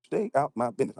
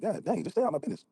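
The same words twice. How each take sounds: First: Said in the usual way. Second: Mock woman. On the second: Mocking a Southern woman.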